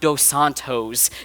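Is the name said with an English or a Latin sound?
Latin. The name is said with a Latin-sounding accent. The speaker calls it wrong. "Latinize my name and make it like more like Latin sounding"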